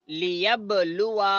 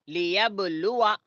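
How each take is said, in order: No difference in how they are said.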